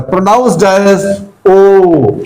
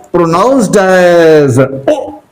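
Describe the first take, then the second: First: O at the end held as a long "ooo"; slow phrase, stretching the final O as in moon; long vowel. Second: Slow lead-in, then a quick short O as in cook; short vowel. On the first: Teacher contrasting the two word groups, long O. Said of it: "here long". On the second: Teacher contrasting the two word groups, short O. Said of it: "Here short". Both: Shown as a demonstration.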